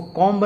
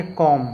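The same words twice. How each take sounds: First: कॉम्ब with B sounded after M; wrong pronunciation. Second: कॉम ending on M; correct pronunciation. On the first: Teacher warns against misreading, कॉम्ब as spelt. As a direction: release a clear B at the end of कॉम्ब. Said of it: "इसको कॉम्ब नहीं पढ़ेंगे". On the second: Teacher gives the right reading, कॉम closed on M. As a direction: leave the B silent in कॉम. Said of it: "क्या पढ़ेंगे". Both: Shown as a demonstration.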